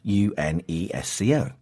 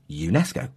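First: Each letter is spoken separately, one by one. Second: It is said smoothly as a single word. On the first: The speaker calls it wrong. "We don't spell out the letters separately. We don't say UNESCO" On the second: The speaker calls it right. "we say them as if they are a word"

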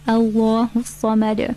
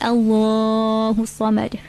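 First: The long vowel is held for two counts. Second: The long vowel is held for four counts. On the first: The speaker calls it right. "So just two counts" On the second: The speaker calls it wrong. "not four counts. Not Allahu samad"

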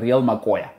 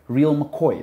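First: The last word ends in a 'coya' sound. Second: The last word ends in a 'coy' sound. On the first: This is the South African way of saying it. The speaker calls it right. "It's the Real Makoya" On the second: This is the British way of saying it. The speaker calls it wrong. "the Brits say Real McCoy. That's not how you say it"

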